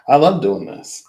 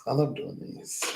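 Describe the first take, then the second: First: Higher and louder, gushing; excited exclaim. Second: Soft breathy whisper, higher; whispered repeat. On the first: Telling viewers she loves the readings, louder and higher. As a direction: blurt it out with delight. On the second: Repeating her love for readings to viewers, whispered. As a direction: say it again as a secret whisper. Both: Real, not acted.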